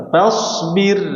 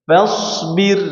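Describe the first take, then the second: Both takes have the same delivery.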